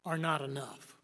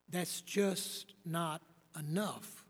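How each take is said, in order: First: Said in the usual way. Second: "That's just not enough" drawn out slowly, weight on "just"; slow emphatic repeat. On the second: Real, not acted. Preacher pressing the point to listeners, slow stress on "just". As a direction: lean slowly into "just" and let it fall.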